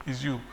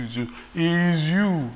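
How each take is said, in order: First: Said in the usual way. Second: "you" drawn out slow, each one hit; slow stressed you. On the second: Acted. Preacher telling each listener "is you", slow. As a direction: lean hard on every "you".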